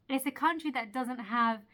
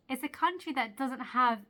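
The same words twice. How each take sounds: The two takes are said the same way.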